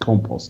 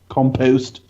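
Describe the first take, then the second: First: It is said with a British pronunciation. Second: It is said with an American pronunciation. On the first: "It's compost here" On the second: "I don't know if that's how, how you pronounce it in the United States"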